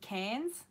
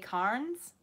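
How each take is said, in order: First: The R sound is left out of the word. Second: The R sound is pronounced in the word. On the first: This is how locals say it. The speaker calls it right. "We don't pronounce the R's" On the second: This is how non-locals say it. The speaker calls it wrong. "They say Carnes"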